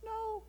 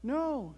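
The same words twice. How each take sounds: First: Very high, tiny squeak; tiny peep. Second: High little refusal; small frog's answer. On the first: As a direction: peep it like a shrunken frog. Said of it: "peeped Frog". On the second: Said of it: "said Frog". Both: A narrator's reading.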